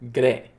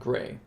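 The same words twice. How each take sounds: First: The R is rolled with a trill. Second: The R is said plainly, without a roll. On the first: The speaker calls it right. "It's very important that you roll the R" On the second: The speaker calls it wrong. "It's not gray"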